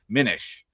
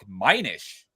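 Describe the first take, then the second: First: The first vowel is a short 'ih' sound. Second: The first vowel is a long 'eye' sound. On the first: The speaker calls it right. "its pronunciation follows a short I, sounds like minish, like diminish" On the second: The speaker calls it wrong. "the spelling might suggest a long I sound like minish"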